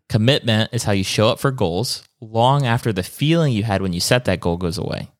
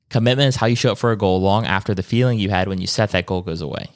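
First: It is said more slowly. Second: It is said at normal speed.

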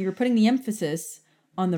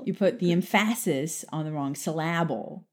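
First: Syllable has its usual first-syllable stress. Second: Syllable is stressed on an unusual syllable.

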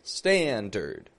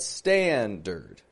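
First: The second syllable has a reduced schwa vowel. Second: The same.

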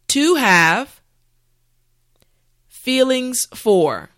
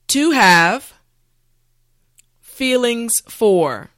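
Both takes have the same delivery.

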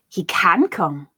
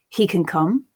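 First: The word 'can' is stressed and strong. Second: The word 'can' is unstressed and weak.

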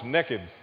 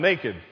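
First: It is said in a Southern US accent. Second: It is said in a standard accent.

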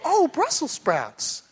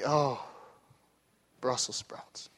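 First: It sounds happily pleased, like the wife. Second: It sounds openly disgusted, with a grimace.

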